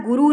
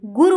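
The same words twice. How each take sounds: First: गुरु with a long final "oo"; wrong pronunciation. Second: Said in the usual way. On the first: Shown as a demonstration. Teacher rejects the misspelling, said with long "oo". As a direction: stretch the last vowel of गुरु. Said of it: "लगी है बड़ाऊ की मात्रा". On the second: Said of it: "छोटा ऊ की".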